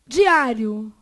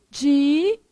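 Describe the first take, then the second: First: Said in the usual way. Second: Diário as separate di, á, rio; syllable by syllable. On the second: Shown as a demonstration. Teacher dividing Diário for the class, syllable by syllable. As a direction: break Diário into long held syllables.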